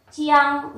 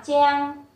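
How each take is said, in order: First: "Chiang" held level, chi and ang both heard; "Chiang" sounded out slowly before blending; spelled-out sounds. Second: "cheng" as one level syllable; "cheng" with its vowels run together; blended syllable. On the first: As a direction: stretch "Chiang" through its parts. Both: Shown as a demonstration. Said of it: "đọc là cheng".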